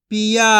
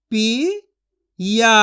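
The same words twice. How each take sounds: First: Said in the usual way. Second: पिया stretched slowly with a rising end; slow drawn-out sounding. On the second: Shown as a demonstration. Teacher stretching पिया slowly for children to copy. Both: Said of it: "मैं किस तरीके से एक एक अक्षर का उच्चारण करके".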